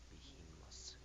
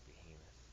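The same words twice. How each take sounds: First: The word ends with an s sound. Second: The word ends with a th sound. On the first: "there's no th sound in um, in Japanese, so it would just be an s" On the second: "they're trying to say behemoth"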